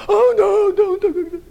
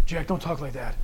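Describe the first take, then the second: First: Much higher and louder, a hammed-up alarmed cry; mocking the squeamish objection loudly; shrill mock protest. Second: A soft voice telling the preacher to stop; hushed disapproving voice. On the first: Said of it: "Satan wants you to go". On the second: Retold or imitated. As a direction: lower and much softer, a quiet scold.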